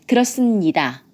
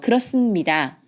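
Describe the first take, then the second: First: The ending has a strong, clear 'nida'. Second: The ending sounds like a weak 'mida'. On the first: The speaker calls it right. "니다라고 힘을 주셔야 돼요" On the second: The speaker calls it wrong. "이렇게 발음할 때 미다라고 나기가 쉽습니다"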